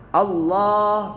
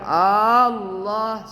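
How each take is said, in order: First: The first vowel is short and the L is doubled. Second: The first vowel is drawn out long. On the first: The speaker calls it right. "tapi double L" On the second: The speaker calls it wrong. "Nggak boleh panjang Allah, salah"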